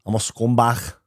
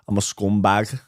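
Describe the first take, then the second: First: Throaty Scouse ending on "scumbag"; Scouse accent attempt. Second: Mild Scouse, rising at the end; Scouse accent attempt. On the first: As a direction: try it like a Liverpudlian. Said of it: "your Scouse accent attempt". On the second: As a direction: toss off a light Liverpool accent. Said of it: "My accents and impressions aren't good".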